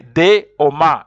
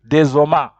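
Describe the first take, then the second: First: The two words are kept separate, with no linking. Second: A z sound links into the second word. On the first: The speaker calls it right. "you say des homard. You don't join" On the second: The speaker calls it wrong. "If you are to join, it would be des homards"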